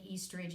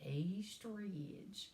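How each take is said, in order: First: Said in the usual way. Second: Slow, stretched-out East Tennessee drawl; East Tennessee accent. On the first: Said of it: "you can't say East Ridge". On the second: Shown as a demonstration. Teaching students the hometown name, East Tennessee drawl. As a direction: draw out "East" long in Tennessee twang. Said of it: "you have to say East Ridge".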